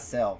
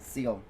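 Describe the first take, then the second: First: The vowel is short, like in 'cell'. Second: The vowel is long, like in 'seal'. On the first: The speaker calls it wrong. "I've been saying it wrong for the whole time" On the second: The speaker calls it right. "It's Seal"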